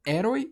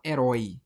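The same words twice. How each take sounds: First: HERÓI as É-roi, first syllable strong; wrong-syllable stress. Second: HERÓI as e-RÓI, open ó; last-syllable stress. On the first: Teacher testing a wrong option, HERÓI stressed É-roi. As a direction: hit the start of HERÓI, weak roi. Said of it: "ou a gente fala herói". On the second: Teacher offering right option, HERÓI stressed e-RÓI. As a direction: let the weight fall on RÓI in HERÓI. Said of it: "a sílaba tônica é a última". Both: Shown as a demonstration.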